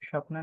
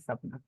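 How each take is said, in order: First: The word begins with an 'sh' sound. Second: The word begins with an 's' sound. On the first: The speaker calls it wrong. "कई बार मेरे मुंह से तो निकल जाता है श" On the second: The speaker calls it right. "Actually में सपना होता है"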